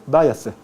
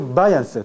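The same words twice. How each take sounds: First: "Váyase" for váyanse, no n; dropped n. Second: "váyanse" with the n fully sounded; standard pronunciation. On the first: Teacher demonstrates lowland elision, "Váyase" without n. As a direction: go straight from the vowel to "se" in "Váyase". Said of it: "Se elimina". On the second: Teacher gives the standard form first, "váyanse" with n. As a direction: keep a clear n before "se" in "váyanse". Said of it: "Pero ¿cómo se pronuncia?". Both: Shown as a demonstration.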